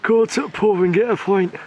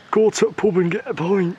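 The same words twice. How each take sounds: First: Mother asks for it again, he overplays it; awful northern accent. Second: Pub and pint in a put-on northern lad voice, higher; playful northern bloke impression; cheeky lad voice for the boy's first pint; mock northern accent. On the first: Pretend. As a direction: ham up a bad northern lad. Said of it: "That was awful". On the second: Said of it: "Do that again".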